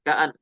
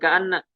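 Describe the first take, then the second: First: The word ends in a single, short n. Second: The word has a doubled n and final vowel. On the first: The speaker calls it right. "Di sini ka'an dibaca ringan" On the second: The speaker calls it wrong. "bukan ka'anna"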